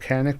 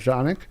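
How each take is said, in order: First: The word begins with a hard K sound. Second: The word begins with a soft J sound. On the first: This is how many Americans say the name. "A lot of people in America call it" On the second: This is the original Turkish way to say the name. "original uh, pronunciation in Turkish"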